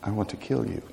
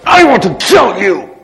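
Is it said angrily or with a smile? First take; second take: smile; angrily. First: It is said calmly, with a smile. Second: It is said angrily, without a smile.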